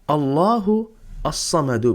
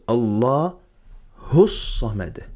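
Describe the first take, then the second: First: Every vowel is pronounced, including the final one. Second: The words are linked and the final vowel is dropped.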